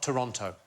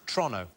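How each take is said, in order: First: The word is said slowly and fully. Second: The word is said quickly and clipped. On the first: It follows the fuller outsider pronunciation. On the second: It follows the local habit of saying place names fast.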